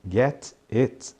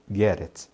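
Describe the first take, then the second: First: The T is pronounced as a clear T. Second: The T is a quick R-like flap. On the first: "a pronúncia de get it" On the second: "Esse T aí de get viram um R e aí emenda com it"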